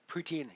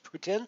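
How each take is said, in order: First: It is said with an English Canadian pronunciation. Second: It is said with a French-like pronunciation. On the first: This is how English Canadians say it. "here in Canada" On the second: This is how it is said in Quebec. "pretty close to the French pronunciation"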